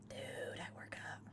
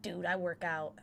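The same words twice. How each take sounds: First: Low, soft, breath-heavy repeat; mock-cool hushed aside; hushed boast. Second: Said in the usual way. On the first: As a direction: drop it down to a near-whisper.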